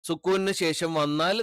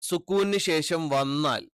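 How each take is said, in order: No difference in how they are said.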